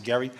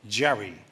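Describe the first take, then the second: First: The name begins with a hard G sound. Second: The name begins with a soft J sound. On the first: This is how the man said his own name. "He pronounced it Gerry" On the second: This is how the political term says it. "only the term softens the G"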